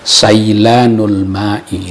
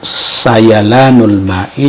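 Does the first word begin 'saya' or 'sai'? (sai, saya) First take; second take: sai; saya. First: The first word begins with the single syllable sai. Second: The first word begins with the syllables sa-ya. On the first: The speaker calls it wrong. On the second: The speaker calls it right.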